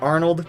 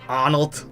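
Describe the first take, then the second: First: The name is said in standard English. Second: The name is said with an Austrian-style vowel.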